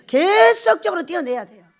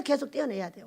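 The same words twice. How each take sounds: First: 계속적으로 punched louder and higher; 계속적으로 thrown out loud for emphasis; stress on 계속적으로. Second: Said in the usual way. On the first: Shown as a demonstration. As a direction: hit 계속적으로 hard, drive the point home.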